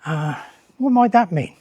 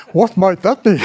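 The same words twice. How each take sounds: First: Said in the usual way. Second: A touch louder, posing the question like a teacher to the class; lecturer mode. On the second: Shown as a demonstration. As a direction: put the question to the room as a lecturer. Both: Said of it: "I can go back into lecturer mode".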